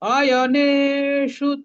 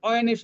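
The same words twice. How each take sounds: First: The 'ya' sound is fully and clearly pronounced. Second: The 'ya' sound is clipped and weak. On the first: The speaker calls it right. "ইয়টা পূর্ণ, নের নয় সাথে একার আছে, এটা দীর্ঘ হবে" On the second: The speaker calls it wrong. "আমরা কিন্তু অয়নেষু বলবো না"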